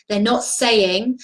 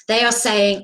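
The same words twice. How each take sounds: First: Slow, leaning hard on not; They're not saying, with not pressed down slowly; stress on not. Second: Are pushed up and a bit louder; They are saying, hitting are firmly; stress on are. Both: Real, not acted.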